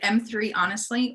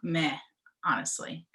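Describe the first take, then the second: First: The first word is said as 'em three'. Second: The first word is said as 'meh'. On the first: "is it M three, honestly?" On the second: "or meh, honestly?"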